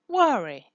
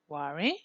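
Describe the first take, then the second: First: The pitch falls at the end. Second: The pitch rises at the end.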